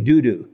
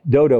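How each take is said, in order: First: Both vowels sound like 'oo'. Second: Both vowels sound like 'oh'. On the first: The speaker calls it right. "but it's really Dudu" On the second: The speaker calls it wrong. "That's what it looks like"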